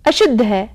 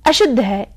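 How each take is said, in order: Both takes have the same delivery.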